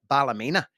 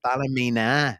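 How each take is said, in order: First: The second syllable is reduced to 'luh'. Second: Each syllable is said fully and stiffly. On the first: This is how people here say the name. The speaker calls it right. "we pronounce it here as if that's a Ballymena" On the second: This is how software would say the name. The speaker calls it wrong. "quite mechanically how they this word might sound"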